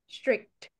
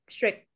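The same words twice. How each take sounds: First: The word ends with a clear t sound. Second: The word ends without a t sound. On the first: The speaker calls it right. "it has a T sound at the end" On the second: The speaker calls it wrong. "not strict"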